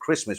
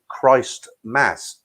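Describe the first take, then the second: First: It is said as one blended word. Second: It is said as two separate words. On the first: This is the everyday pronunciation. "we pronounce it Christmas" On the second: This shows the word's original parts. "the word is actually Christ Mass"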